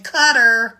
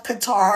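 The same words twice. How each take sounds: First: Qatar said like "cutter", stress up front; Qatar with a short, punched first syllable and "ter" ending; American pronunciation. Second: Qatar with the stress on the second syllable, kuh-TAR; Qatar ending in a long, stressed "tar"; native-style pronunciation. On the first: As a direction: say Qatar as CUT-er, American style. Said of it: "as we Americans like to say". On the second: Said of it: "or as we Americans like to say". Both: Shown as a demonstration.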